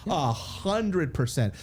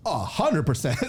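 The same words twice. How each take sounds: First: "A hundred percent" drawn out slowly, each word weighted; slow emphatic. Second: Said in the usual way. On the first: Real, not acted. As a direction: lean hard on hundred, slowly. Repeated, stretched agreement.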